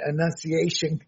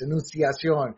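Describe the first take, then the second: First: The word is pronounced the American way. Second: The word is pronounced the Spanish way. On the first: "I'm sure Americans say" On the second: "is how you say it in Spanish"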